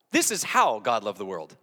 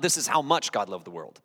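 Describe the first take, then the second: First: "how" stressed, rest falling lower. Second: "much" picked out as the wrong point; stress on MUCH. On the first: Preacher corrects the verse reading, stress on "how". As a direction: land firmly on "how", then drop. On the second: Preacher rejects the common reading, stress on "much". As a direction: lean on "much" to contrast it. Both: Shown as a demonstration. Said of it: "See the difference?".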